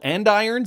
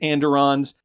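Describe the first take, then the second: First: The middle syllable sounds like 'eye'. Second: The middle syllable sounds like 'der'. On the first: The speaker calls it right. "They are actually called andirons" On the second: The speaker calls it wrong. "I am getting the pronunciation wrong"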